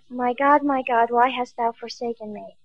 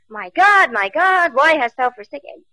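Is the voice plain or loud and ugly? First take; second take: plain; loud and ugly. First: It is said in a plain, calm voice. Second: It is said in a loud, ugly voice.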